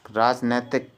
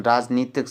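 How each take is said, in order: First: "राजनैतिक" with ai after n; common wrong form. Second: "राजनीतिक" with long ee after n; correct form demonstrated. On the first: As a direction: say nai in "राजनैतिक". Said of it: "राजनैतिक ये लिखा रहता". ("राजनैतिक" में ऐ की मात्रा) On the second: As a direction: say nee in "राजनीतिक". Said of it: "राजनीतिक सही होता शब्द". ("राजनीतिक" में ई की मात्रा) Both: Shown as a demonstration.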